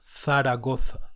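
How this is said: The z letters sound like English th. "theta, which is pronounced like th"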